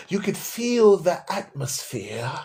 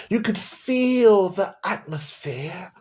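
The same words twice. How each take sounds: First: Said in the usual way. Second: Slow hushed whisper, mocking the awe. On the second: Shown as a demonstration. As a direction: breathe it out slowly like a sacred secret. Mocking the vague church feeling.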